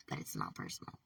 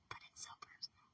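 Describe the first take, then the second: First: Said in the usual way. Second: Hushed breathy whisper, barely voiced; soft whisper, almost to herself. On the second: Real, not acted. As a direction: drop to a whisper on the admission. Whispered contrast with not personal.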